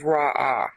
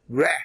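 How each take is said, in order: First: The word is said with an 'ah' vowel. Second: The word is said as a short 'reh'. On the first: The speaker calls it wrong. "I pronounced this as Ra'ah" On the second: The speaker calls it right. "the right pronunciation is Reh"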